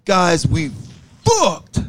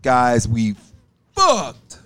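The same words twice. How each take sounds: First: High announcer-style intro; intro announcement. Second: Lower, fuller intro with belly; deep belly voice. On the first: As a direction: belt out the intro. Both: Shown as a demonstration. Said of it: "you gotta get the right tone".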